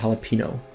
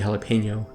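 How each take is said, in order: First: The n before the end is a plain n. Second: The n before the end sounds like 'ny'. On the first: This is how it was said growing up. The speaker calls it wrong. "I was raised to call it jalapeno" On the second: This is how it is supposed to be said. The speaker calls it right. "it's supposed to be jalapeno"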